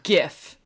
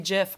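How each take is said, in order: First: The word begins with a hard G sound. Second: The word begins with a J sound. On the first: The speaker calls it right. "one of the hills that I will die on" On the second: The speaker calls it wrong. "are a J pronunciation, but I just can't say GIF"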